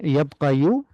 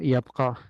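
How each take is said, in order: First: The word ends with an added final vowel. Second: The word ends without an added vowel. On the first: The speaker calls it wrong. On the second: The speaker calls it right. "we say uh"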